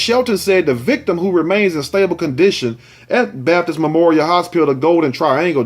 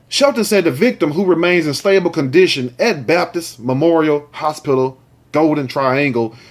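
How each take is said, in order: First: It is read fast and excitedly. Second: It is read more slowly and clearly.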